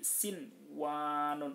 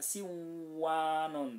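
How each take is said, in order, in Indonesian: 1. Bunyi n sebelum w dibaca jelas. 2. Bunyi n sebelum w dihilangkan. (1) "harus dibaca jelas" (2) "Nggak boleh dibaca siwanun"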